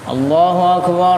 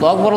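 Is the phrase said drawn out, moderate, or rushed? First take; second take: drawn out; rushed. First: The vowels are stretched out very long. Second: It is said very fast and hurried. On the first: "buat takbir dua empat kali aja sampai setengah menit" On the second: "Giliran komat cepet-cepet banget"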